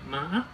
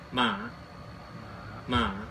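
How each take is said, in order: First: The pitch rises with a break. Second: The pitch dips down then rises. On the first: "一个波浪状符号，它就念" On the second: "长得很像问号的，它就念"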